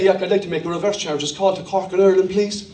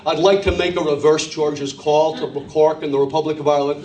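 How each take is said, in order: First: Quick-fire Irish caller, a little low; casual Irish phone request; own Irish accent. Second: Low, careful American caller; deliberate American phone voice; put-on American accent. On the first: Acted. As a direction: ask in a thick Irish accent. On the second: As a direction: switch to American to be understood. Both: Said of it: "change your accent and you were there".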